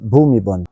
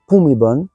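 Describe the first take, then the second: First: The name begins with a b sound. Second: The name begins with a p sound. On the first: This is not how Thai speakers say it. The speaker calls it wrong. "et pas Bhumibol" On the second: This is how Thai speakers say it. The speaker calls it right. "ils disent bien Bhumibol"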